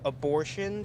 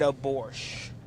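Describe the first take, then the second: First: The word is said with all its syllables. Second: The word is said without its last syllable. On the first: "instead of saying the word abortion" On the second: "leaving out like the last syllable"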